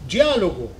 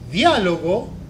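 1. La d suena como la j del inglés, africada. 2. La d es una d simple, no africada. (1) "vocês van a pronunciar en portugués normalmente" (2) "en la nuestra lengua vamos a ficar, va a ficar ese jeitinho"

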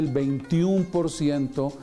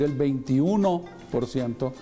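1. El número termina en la forma corta un. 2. El número termina en la forma completa uno. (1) "cuando se dice el 21%" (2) "se debe decir el 21%"

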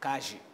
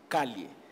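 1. O duplo L soa como zh. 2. O duplo L soa como y. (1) "Mas o bonaerense fala calle" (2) "Em espanhol é calle, com dois L's"

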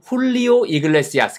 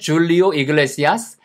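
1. 이 이름은 H 소리로 시작해요. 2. 이 이름은 J 소리로 시작해요.

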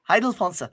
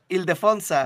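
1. El nombre se pronuncia de forma parecida al alemán. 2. El nombre se pronuncia de forma sencilla, al estilo español.

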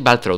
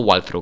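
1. El nombre empieza con sonido B. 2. El nombre empieza con sonido W. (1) "Y es Balthrow" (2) "no Walthrow"

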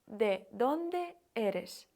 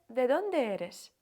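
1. Фразу вимовляють повільно. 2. Фразу вимовляють швидко.

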